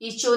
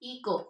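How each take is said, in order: First: The middle consonant is a ch sound. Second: The middle consonant is a plain k sound. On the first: The speaker calls it wrong. "इचो नहीं पढ़ेंगे, C H की sound नहीं आएगी" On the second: The speaker calls it right. "इसको हम क्या पढ़ेंगे, इको"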